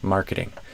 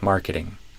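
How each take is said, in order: First: The middle T is a quick tap. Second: The same.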